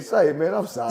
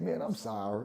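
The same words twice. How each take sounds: First: Retold apology. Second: Low, soft, sheepish apology; meek and hushed, pitch dropped; retold apology. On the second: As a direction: back down quietly. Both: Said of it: "I said".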